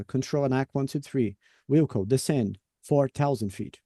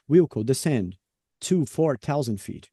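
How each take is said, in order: First: "Wilco, descend four thousand feet" with clear pauses between the words. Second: "to" run together with "four" in "descend to four thousand feet"; to joined to four. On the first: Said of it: "espaçamento também com pausa". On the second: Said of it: "Aí eu juntei aqui". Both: Shown as a demonstration.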